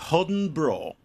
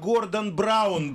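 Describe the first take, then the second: First: The name is clipped, with no r and a short ending. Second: The name is said in full, with every sound.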